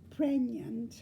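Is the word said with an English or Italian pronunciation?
Italian. It is said with an Italian pronunciation.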